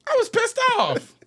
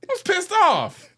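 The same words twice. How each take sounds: First: Much higher, indignant outburst; outraged. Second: "was pissed off" drawn out slowly with weight on "was"; slow emphatic repeat. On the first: Venting to the co-host about the ending, outraged and high. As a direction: blurt it out, fed up. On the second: Repeating the complaint to the co-host, slow and emphatic. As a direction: lean on each word, slow. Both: Real, not acted.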